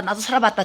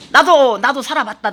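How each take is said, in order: First: Mock murmur. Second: Said in the usual way. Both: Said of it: "여러분들 얼굴 표정에 보면은".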